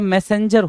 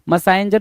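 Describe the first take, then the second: First: The second syllable sounds like 'sen'. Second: The second syllable sounds like 'sine'. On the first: The speaker calls it right. "मैसेंजर होता है" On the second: The speaker calls it wrong. "मसाइंजर नहीं होता"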